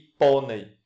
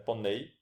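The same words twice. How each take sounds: First: The stress is on the first syllable. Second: The stress is on the last syllable. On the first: It is the other, non-verb form. "aqui nós temos o acento na penúltima sílaba" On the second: It is the verb form. "no verbo nós temos o acento na última sílaba"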